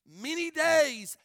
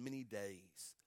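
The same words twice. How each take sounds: First: Slow, high, loud repetition; emphatic cry. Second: Low, soft, falling close; hushed reading. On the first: Preacher stressing how long the father mourned, emphatic cry. Same words repeated at full force. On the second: Reading of Jacob mourning for his son, hushed. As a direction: drop the phrase down low and soft. Same words softly, then cried out. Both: Real, not acted.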